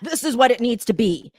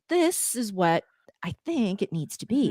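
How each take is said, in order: First: It sounds assertive, in a lowered voice. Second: It sounds warm, in a softer voice.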